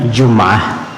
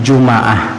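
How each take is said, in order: First: No vowel is heard after the m. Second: An a vowel is heard after the m. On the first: It can mean Friday or a week. "Boleh disukunkan bunyinya" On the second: It means Friday. "boleh dipathahkan bunyinya"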